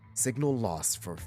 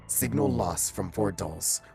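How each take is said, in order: First: It is said in the speaker's normal voice. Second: It is said in a put-on character voice.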